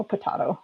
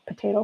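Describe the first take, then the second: First: Potato with an open "ah" in the middle; potato as po-TAH-to. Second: Potato with a long "ay" in the middle; potato as po-TAY-to. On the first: Showing the other variant, potato as po-TAH-to. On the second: Telling viewers it doesn't matter, potato as po-TAY-to. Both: Shown as a demonstration. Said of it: "We all pronounce things differently".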